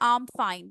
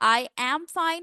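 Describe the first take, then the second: First: I am is contracted into one syllable. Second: I am is said as two full words. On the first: "when you're talking, apply the contractions" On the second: "I am fine and I'm fine, दोनों different हैं"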